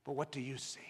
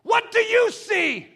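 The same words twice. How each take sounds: First: Low, soft, searching question; quiet appeal to each listener; hushed challenge. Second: Very high, loud, slow demand; drawn-out pulpit shout; shouted challenge. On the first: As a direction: drop right down and ask it intimately. Same question, now dropped soft. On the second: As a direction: cry the question out to the congregation. Preacher challenges congregation, then softens. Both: Real, not acted.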